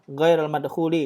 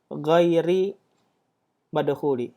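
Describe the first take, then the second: First: The first word ends with an -ul sound. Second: The first word ends with an -i sound. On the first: The speaker calls it wrong. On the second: The speaker calls it right.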